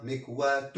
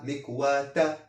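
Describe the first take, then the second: First: مكواة ending in short -u, "mikwatu"; single damma ending. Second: مكواة ending in short -a, "mikwata"; single fatha ending. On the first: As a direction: say مكواة with final -tu, no n. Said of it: "ضمة". (مكواة بضمة واحدة في آخرها) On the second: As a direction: say مكواة with final -ta, no n. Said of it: "فتحة". (مكواة بفتحة واحدة في آخرها) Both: Shown as a demonstration.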